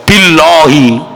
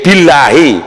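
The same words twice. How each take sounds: First: The L is pronounced heavy and thick. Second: The L is pronounced light and thin. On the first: The speaker calls it wrong. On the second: The speaker calls it right. "kalau jatuhnya setelah kasroh"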